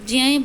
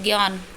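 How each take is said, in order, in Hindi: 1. शब्द ज ध्वनि से शुरू होता है। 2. शब्द ग ध्वनि से शुरू होता है। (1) "ज्यान बोलेंगे इसको" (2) "ग का उच्चारण करते हैं, सभी हम गलत ही बोलते हैं"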